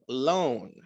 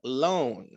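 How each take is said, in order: First: The vowel is a long O. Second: The same.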